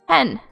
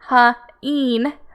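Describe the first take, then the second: First: The vowel is a short E sound. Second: The vowel is a long E sound. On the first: The speaker calls it right. "we hear that short E sound" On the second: The speaker calls it wrong. "not that long E, or it would have been h-een, which that doesn't sound right to me"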